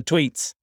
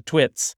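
First: "tweets" said with long ee, the correct way; "tweets" with a clear long ee vowel. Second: "twits" said with short i, like twit; "twits" with a short lax i sound. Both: Shown as a demonstration. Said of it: "on the tweets".

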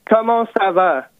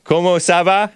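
First: Comment ça va said in French. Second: Comment ça va with English accent; foreign accent in french. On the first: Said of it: "can you say some, like, three words in French". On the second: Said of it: "can you say that?". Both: Shown as a demonstration.

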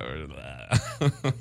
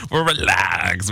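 First: Slow, soft relaxed drawl. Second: Said in the usual way. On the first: Shown as a demonstration. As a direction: stretch out "We're relaxed." slowly and softer. Says relaxed twice, second slowed.

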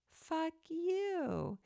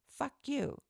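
First: Much higher, sugary and doting, like cooing to a pet; sweetest loving voice. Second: Said in the usual way. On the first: Shown as a demonstration. Speaking to her dog in the sweetest, most loving voice. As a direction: coo it so the dog hears only love. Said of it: "In the sweetest, most loving voice". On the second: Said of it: "In the sweetest".

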